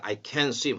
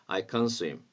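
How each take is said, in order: First: The word 'can' is said strongly and fully. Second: The word 'can' is weakened and reduced. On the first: The speaker calls it wrong. "강하게 I can swim 하지 마시고" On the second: The speaker calls it right. "can의 발음을 조금 약화시키면 좋겠어요"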